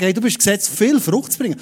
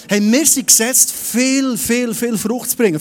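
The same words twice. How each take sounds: First: Said in the usual way. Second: Viel, viel, viel hit hard and rising; stress on viel. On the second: Shown as a demonstration. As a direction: hammer the word viel again and again. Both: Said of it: "Betonung auf viel".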